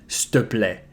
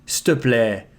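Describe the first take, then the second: First: The first two words merge into one short 'ste'. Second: The same.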